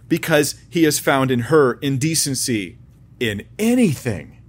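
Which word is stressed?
anything. The word anything is stressed.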